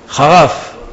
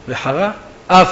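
First: The two words run together without a pause. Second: There is a short pause between the words. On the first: It sounds like a word for reviling. The speaker calls it wrong. "זה לא להשתמע וחרף" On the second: It means anger was kindled. The speaker calls it right. "צריך לתת רווח בין וחרה לאף"

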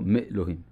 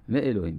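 First: The aleph is silent after the prefix. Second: The aleph is pronounced after the prefix. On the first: The speaker calls it wrong. "לא מאלוהים" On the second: The speaker calls it right. "משה מוציא"

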